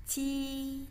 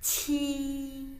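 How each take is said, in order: First: High, held "ci" with no puff of air; "ci" as a drawn-out Mandarin j sound; unaspirated ci. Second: High, held "ci" with a puff of air; "ci" as a breath-released Mandarin q; aspirated ci. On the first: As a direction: keep breath back on the c of "ci". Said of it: "tapi bacanya". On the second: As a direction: push air through the c of "ci". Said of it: "ada anginnya nih ya". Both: Shown as a demonstration.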